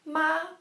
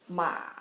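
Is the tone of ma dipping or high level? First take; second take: high level; dipping. First: The pitch stays high and level. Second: The pitch dips low and then rises. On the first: The word means mother. "Ma is the first tone, which means mother" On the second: The word means horse. "Ma is the third tone, which means horse"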